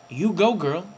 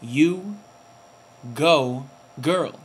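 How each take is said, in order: First: Quick, rising on "go"; tossed-off "you go, girl" with a lift; mock sassy cheer. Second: Drawn out, each word set apart with pauses; hammed-up "you go, girl", slowly spaced; mock sassy cheer. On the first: Vlogger repeating his cheer for Serena, quicker and rising. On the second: Vlogger cheering Serena on in a put-on sassy voice. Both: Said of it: "Or whatever they do".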